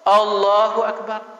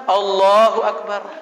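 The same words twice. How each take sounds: No difference in how they are said.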